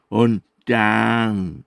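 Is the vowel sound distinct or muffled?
distinct. The vowels are strong and clearly sounded. "혀가 이게 뭉쳐 있으면 안쪽으로 뭉쳐 있으면 언땅 이렇게 나와요"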